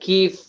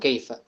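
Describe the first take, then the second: First: It is said in Saudi/Emirati dialect: keef. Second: It is said in Standard Arabic: kaifa.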